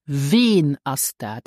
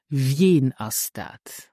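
First: Slow "Wen" as "vehn", no y-glide; examiner's likely pronunciation. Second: Slow "Wen" with a y-glide, like "vyehn"; standard pronunciation. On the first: Teacher models the oral exam question, "Wen" without glide. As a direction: keep "Wen" to one long vowel. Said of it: "more likely to ask you". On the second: Teacher contrasts the exam question, "Wen" with glide. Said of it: "instead of". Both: Shown as a demonstration.

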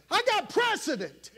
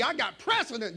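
First: "got" hit high and hard in "I got precedent"; emphatic repeat. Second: Said in the usual way. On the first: Real, not acted. Preacher insisting to the church, "got" punched high. Repeated claim, second time shouted.

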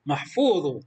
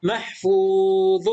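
First: Said in the usual way. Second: محفوظ drawn out slowly and a bit louder, the ظ clear; teacher modelling محفوظ slowly; slow model reading. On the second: Shown as a demonstration. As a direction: sound out محفوظ for the class. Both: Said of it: "وهنا".

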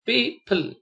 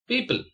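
First: "people" drawn apart as peo, ple; syllable by syllable. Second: Said in the usual way. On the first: Shown as a demonstration. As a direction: separate the two syllables of "people". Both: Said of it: "split the word".

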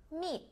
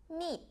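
First: Meat with a long stretched ee sound; long ee vowel. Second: Meat with a long stretched ee; long ee vowel. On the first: Teacher repeating Meat for class, long ee vowel. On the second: Teacher showing class the long vowel in Meat. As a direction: hold the ee in Meat. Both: Shown as a demonstration. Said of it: "Mình đọc âm y dài nha các em".

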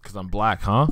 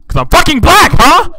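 First: Said in the usual way. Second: High, very loud accusing shout; screamed accusation; mock outraged yell. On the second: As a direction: explode in pretend offense. Mock offense, escalates into yelling.

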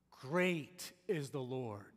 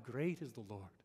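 First: GREAT stretched out slow and strong; emphatic repeat. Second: Said in the usual way. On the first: Shown as a demonstration. Preacher repeating the psalm to the congregation, slow and emphatic. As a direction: draw out "Great", then land slowly on "is the Lord".

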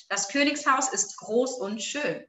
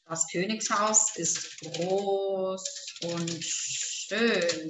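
First: Said in the usual way. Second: Low, slow, drawn-out dictation. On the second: Shown as a demonstration. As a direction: stretch each word for someone writing it down. Dictating the sentence while writing.

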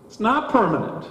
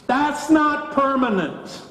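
First: Said in the usual way. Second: "not" raised high, slow and drawn out; emphatic not. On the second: Shown as a demonstration. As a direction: lean hard on "not" in "that's not permanent".

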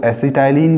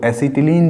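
First: एसिटाइलिन said as "ए-सि-टा-इ-लिन", with a long "टाइ"; say it acetylene. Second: एसिटिलीन said as "ए-सि-टि-लीन", with a short "टि" and a long "लीन"; say it acetileen. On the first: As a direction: pronounce एसिटाइलिन with "ाइ" in the middle, like "acety-line". (एसिटाइलिन को बीच में "टाइ" के साथ बोलें) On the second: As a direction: pronounce एसिटिलीन with "टि" and "लीन", not "टाइ". (एसिटिलीन को "टि" और लंबी "लीन" के साथ बोलें) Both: Shown as a demonstration. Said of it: "कुछ लोग एसिटिलीन भी बोलते हैं".

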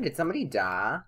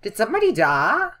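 First: Said in the usual way. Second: High, loud, alarmed question; raised voice jumping upward in surprise; startled question. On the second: Real, not acted. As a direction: blurt it out in sudden disbelief. Startled by a game sound.

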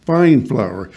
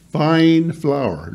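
First: Fine said firmly, flour falling; stress on fine. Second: Fine punched, then flour falling; stress on fine. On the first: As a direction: lean on fine again. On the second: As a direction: hit the word fine hard. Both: Shown as a demonstration. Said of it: "not just any flour".

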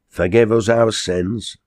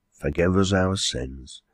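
First: Slow, slightly higher pious exclamation; lightly voiced quarryman, pious. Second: Slow, subdued pious echo; lightly voiced landlady, agreeing. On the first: Quarryman into his pot, slow mild plea. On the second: Landlady echoing the quarryman, slow subdued agreement. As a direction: repeat it slowly and more gently.

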